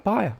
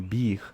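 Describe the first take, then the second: First: The name has a gliding 'ay-er' vowel. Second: The name has a high 'ee' vowel. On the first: The speaker calls it right. "algo entre os dois, como somente os alemães sabem fazer" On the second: The speaker calls it wrong. "nem como Bir"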